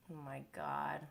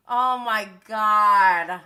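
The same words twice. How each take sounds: First: Soft, lower, under-the-breath oh my God; quiet stunned mutter. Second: Slow, loud, stretched-out oh my God; loud drawn-out disbelief. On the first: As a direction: say it quietly to yourself, deflated. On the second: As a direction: let it out loudly and slowly, stunned. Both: Real, not acted. Reacting in disbelief to show.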